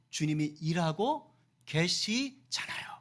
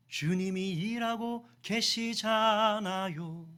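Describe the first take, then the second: First: "주님이", "일하고", "계시잖아요" slowly, with pauses between; slow emphatic phrasing. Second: Very slow, sustained "주님이 일하고 계시잖아요"; long drawn-out emphasis. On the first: Preacher assuring the congregation, slow and broken up for emphasis. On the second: Preacher repeating the assurance to the congregation, long drawn-out delivery. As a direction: stretch the vowels all through "주님이 일하고 계시잖아요". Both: Real, not acted.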